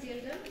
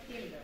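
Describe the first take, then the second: First: জেলডাল with a J sound at the start; জেলডাল, J sound in place of K; local pronunciation. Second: কেলডাল with a hard K at the start; কেলডাল, K sound in place of J; German pronunciation. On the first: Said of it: "আমাদের এখানে আমরা যে উচ্চারণ করি". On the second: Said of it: "জার্মানির উচ্চারণটা করে". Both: Shown as a demonstration.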